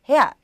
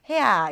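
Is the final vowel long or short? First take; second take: short; long. First: The final vowel is cut short. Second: The final vowel is drawn out long. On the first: "짧게 헤아 이럴 수도 있으니까요" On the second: "이렇게 길게 이어지는 경우도 있고"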